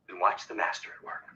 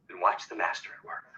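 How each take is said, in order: The two takes are said the same way.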